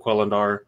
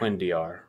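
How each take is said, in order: First: The double L is sounded as an L. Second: The double L is sounded as a Y. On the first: The speaker calls it wrong. "I know I'm saying that wrong" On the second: The speaker calls it right. "the double L being a y"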